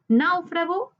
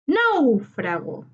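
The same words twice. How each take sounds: First: Said in the usual way. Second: Náufrago slowly, with a long NÁU; tonic syllable stressed. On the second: Shown as a demonstration. Teacher marking the tonic syllable for students, NÁU drawn out in Náufrago. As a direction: punch and stretch NÁU in Náufrago. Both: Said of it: "identificar la sílaba tónica".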